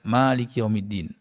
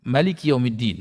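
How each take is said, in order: First: The first vowel of Malik is long. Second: The first vowel of Malik is short. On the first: The one who owns the Day of Judgement. "Jadi tidak" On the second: The one who rules as king over the Day of Judgement. "takhfif, apa namanya, ringan"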